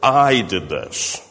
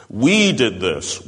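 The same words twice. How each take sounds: First: Slow, the word I leaned on; I pressed hard, slow delivery; stress on I. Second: Slow, the word We leaned on; We weighed down, slow delivery; stress on we. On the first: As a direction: land on the word I, slowly. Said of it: "not so much". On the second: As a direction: hit the word We slowly. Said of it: "Paul is really putting the emphasis on we". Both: Shown as a demonstration.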